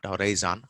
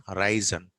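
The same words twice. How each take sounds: First: Horizon with a fuller first vowel and final "zaan"; wrong full vowel. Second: Horizon as "huh-RAI-zn"; short, weak ending on "horizon"; reduced vowel. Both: Shown as a demonstration. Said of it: "not horizon".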